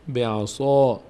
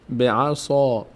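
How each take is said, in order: Both takes have the same delivery.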